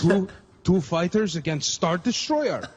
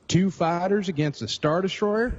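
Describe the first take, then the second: First: It is said in a Russian accent. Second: It is said in a Southern accent.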